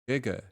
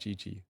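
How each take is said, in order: First: The vowels sound like 'uh'. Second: Both vowels sound like 'ee'. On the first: The speaker calls it right. "It's Guga" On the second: The speaker calls it wrong. "I just pronounced that Gigi this whole time"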